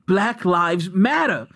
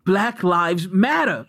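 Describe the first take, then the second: First: It is said as an anguished cry. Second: The same.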